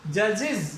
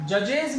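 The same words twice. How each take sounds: First: जजेज ending in iz, jajiz; जजेज with a short iz at the end; correct pronunciation. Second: जजेज with a full e and j, jajej; the wrong reading, जजेज ending in ej. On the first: Teacher gives the correct reading to the class. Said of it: "इज पे जाके खत्म होगा". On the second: Teacher marks this reading as wrong. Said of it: "जजेज नहीं". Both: Shown as a demonstration.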